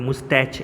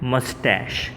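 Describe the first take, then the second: First: The word ends with a ch sound. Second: The word ends with an sh sound. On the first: The speaker calls it wrong. "ઉચ્ચાર તો બધા મુસ્તાક કે મુસ્ટેચ એવો કરતા હોય છે" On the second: The speaker calls it right. "આનો સાચો ઉચ્ચાર છે મસ્ટેશ"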